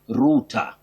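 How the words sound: It is said with a British pronunciation. "in British English, you say router for that computing term"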